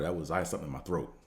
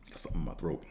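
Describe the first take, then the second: First: Said in the usual way. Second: Hushed, breathy throat-clearing whisper; hoarse whisper. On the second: Real, not acted. Vlogger to his viewers, mid-sip, in a hoarse whisper. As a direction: whisper it while the throat is blocked. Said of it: "Let me take a sip of this".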